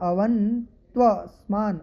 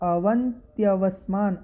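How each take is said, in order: First: No extra 'ya' sound comes before 'vasmaan'. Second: An extra 'ya' sound comes before 'vasmaan'. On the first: The speaker calls it right. "अवन देखिए आधा न" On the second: The speaker calls it wrong. "पहले मैंने थोड़ा सा उच्चारण किया, यह यह बोल रहा था, यह नहीं है"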